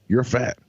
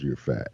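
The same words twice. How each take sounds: First: Higher, blunt doctor verdict; mock doctor, matter-of-fact; imitating the doctor. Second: Softer, lower, as if it still rings in his head; hushed replay of the insult; quiet echo. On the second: Retold or imitated. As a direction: let it fade like a memory. Words echoing in his memory.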